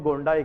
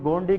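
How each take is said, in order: First: गोंडाई with a final "eye" sound; gondii ending in EYE. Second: गोंडी with a final "ee" sound; gondii ending in EE. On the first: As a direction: say गोंडाई as GON-dye, last syllable like "die". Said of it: "कुछ लोग गोंडाई कहते हैं". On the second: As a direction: say गोंडी as GON-dee, last syllable like "dee". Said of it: "कुछ लोग गोंडी कहते हैं". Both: Shown as a demonstration.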